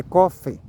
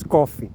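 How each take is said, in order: First: "coffee" ending in an open e sound, kofe; correct pronunciation. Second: "coffee" with a closed final i sound, kofi; wrong pronunciation. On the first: Vlogger correcting viewers, "coffee" said kofe. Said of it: "é coffee". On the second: Vlogger showing viewers the common mistake, "coffee" ending in i. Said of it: "Tem gente que diz coffee". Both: Shown as a demonstration.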